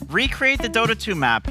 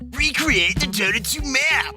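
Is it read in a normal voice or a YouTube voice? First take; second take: normal; YouTube. First: It is read in a normal voice. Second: It is read in a YouTube presenter voice.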